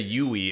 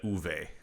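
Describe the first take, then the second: First: The name is said without a V sound. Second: The name is said with a V sound. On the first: The speaker calls it wrong. "I used to say Yui" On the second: The speaker calls it right. "apparently it is uh, Uwe"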